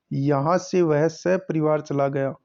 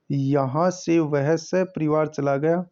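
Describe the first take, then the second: First: Said in the usual way. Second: Slow, deliberate reread of the sentence. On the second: Shown as a demonstration. Teacher rereads the sentence for the class, slowly. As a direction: read it again slowly, word by word.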